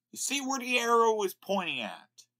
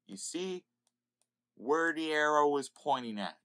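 First: Higher, louder repeat; emphatic repeat. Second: Said in the usual way. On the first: Real, not acted.

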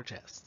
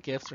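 First: Gifs with a soft G; soft G pronunciation. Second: Gifs with a hard G; hard G pronunciation. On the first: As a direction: say gifs like "jifs". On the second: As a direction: say gifs with the G of "give". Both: Shown as a demonstration. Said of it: "gifs or gifs".

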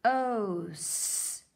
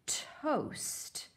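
First: T-O-S-T letter sound by sound. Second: Said in the usual way. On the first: Shown as a demonstration. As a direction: segment T-O-S-T slowly. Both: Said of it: "Help me read".

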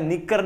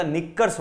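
First: निक्कर ending on R; the rejected form निक्कर, without final S; singular without S. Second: निक्कर्स with S after the R; corrected form निक्कर्स, ending in RS; plural final S. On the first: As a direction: stop निक्कर on the R, no S. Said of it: "निक्कर नहीं होता". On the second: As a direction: sound the closing S on निक्कर्स. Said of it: "निक्कर्स होता है". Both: Shown as a demonstration.

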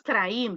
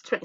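First: "train" read as spelt, tra-in; wrong pronunciation. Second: "train" with one gliding AY vowel; correct pronunciation. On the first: Teacher shows the error, "train" as tra-in. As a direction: sound A and I separately in "train". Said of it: "No es train". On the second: Teacher corrects the vowels, "train" as treyn. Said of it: "vea, es train". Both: Shown as a demonstration.

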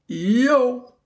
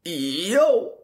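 First: A high, drawn-out cool-guy "Yo.". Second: Cool-guy yo. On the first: Podcaster quoting Lance's cool-guy farewell, mock cool. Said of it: "and I quote". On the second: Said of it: "Let me repeat that for y'all". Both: Retold or imitated.

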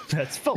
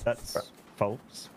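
First: Half-hearted denial; weak denial. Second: Unconvincing denial. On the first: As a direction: deny it without conviction. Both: Real, not acted. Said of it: "even you didn't sound convinced".

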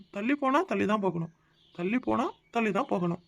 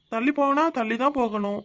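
First: Softer, pondering the riddle to himself; puzzled musing. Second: Said in the usual way. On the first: Shown as a demonstration. Husband puzzling over his wife's hint, softly to himself. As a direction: turn the words over quietly, trying to crack them. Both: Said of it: "என்ன அர்த்தம்?".

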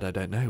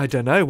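First: Said in the usual way. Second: A louder, higher, rising "know", flustered and unsure; flustered I don't know. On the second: Retold or imitated. Volunteer caught off guard by the question, flustered rising blurt. He panics when asked what he can do.

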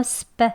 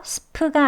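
First: "스프" with p tightened to Korean pp; tense sp. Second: "스프" with a breath-puffed p; aspirated sp. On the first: Teacher corrects the puffed version, tense "스프". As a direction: say "스프" short, p unaspirated and tense. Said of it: "된 소리로 발음하면". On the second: Teacher shows learners what to avoid, aspirated "스프". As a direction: puff out the p in "스프". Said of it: "스프가 아니고". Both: Shown as a demonstration.

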